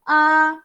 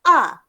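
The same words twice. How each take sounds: First: The pitch stays level and steady. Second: The pitch drops sharply, sounding angry. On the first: "Yang pertama senada daripada mulut keluar"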